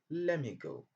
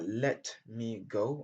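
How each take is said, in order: First: The t at the end of let is dropped. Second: The t at the end of let is pronounced. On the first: "on peut dire let me go. On laisse tomber les, les sons T à la fin" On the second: "Au lieu de dire"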